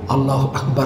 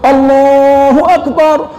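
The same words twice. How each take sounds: First: The phrase is said softly and slowly. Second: The phrase is called out loudly. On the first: "baca pelan-pelan" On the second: "azan kuat-kuat"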